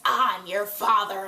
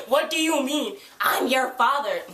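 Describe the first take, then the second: First: Said in the usual way. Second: Higher, mocking disbelief; incredulous echo. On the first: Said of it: "he's like". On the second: Fan disputing Valentine's fatherhood claim, incredulous echo.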